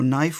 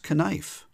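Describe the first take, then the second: First: The K at the start is silent. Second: The K at the start is pronounced. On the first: This is how the word is said today. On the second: This is how the word was said in older English.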